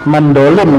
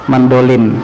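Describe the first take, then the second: No difference in how they are said.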